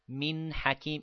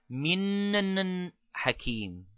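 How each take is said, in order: First: The n is said once, not doubled. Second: The n is doubled and given extra force. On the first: The speaker calls it right. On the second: The speaker calls it wrong.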